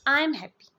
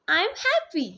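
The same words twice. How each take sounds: First: It is said flatly, without feeling. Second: It is said with happy feeling.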